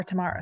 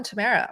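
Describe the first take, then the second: First: Tamara said "tuh-MAR-uh". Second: Tamara said "tuh-MAIR-uh"; Tamara with AIR. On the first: Host offering another pronunciation, Tamara as tuh-MAR-uh. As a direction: open AH in the middle of Tamara. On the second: Host welcoming a new member, Tamara as tuh-MAIR-uh. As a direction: rhyme the middle of Tamara with "air". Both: Shown as a demonstration. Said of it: "Sorry if I mispronounced it".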